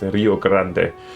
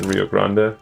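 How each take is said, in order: First: It is said with a Spanish accent. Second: It is said with an English accent. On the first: The speaker calls it right. "Más, más castellano" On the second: The speaker calls it wrong. "English or American pronunciation"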